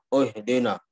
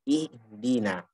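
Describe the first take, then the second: First: The first vowel is thick, like o. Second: The first vowel is a clear i. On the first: The speaker calls it wrong. "menjadi o" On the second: The speaker calls it right. "Yang benar adalah kasroh i"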